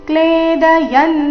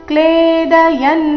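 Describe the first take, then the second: No difference in how they are said.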